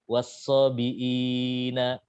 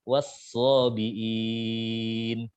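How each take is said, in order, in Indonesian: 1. Vokal panjang itu ditahan dalam waktu sedang. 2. Vokal panjang itu ditahan dalam waktu lama. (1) "empat harokat" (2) "enam harokat"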